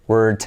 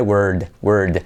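First: "Word" ending in a hard T, like "wort"; wrong T ending. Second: "Word, word" with the final D drawn out a little; long final D. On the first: Teacher imitating the common mistake of ending word with T. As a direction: clip the end of "Word" into a T. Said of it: "acaba en T". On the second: Teacher correcting the wrong T into a longer D. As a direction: stretch the D at the end of "word". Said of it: "alargar un poquito más esa D". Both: Shown as a demonstration.

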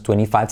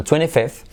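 First: "twenty-five" with the "ai" vowel of five; forma incorrecta. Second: "twenty-fifth" with short i and final th; forma correcta. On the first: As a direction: offer "twenty-five" as the wrong form. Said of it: "no es twenty-five". («twenty-five» con diptongo «ai») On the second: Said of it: "sino twenty-fifth". («twenty-fifth» con i corta y zeta final) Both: Shown as a demonstration.

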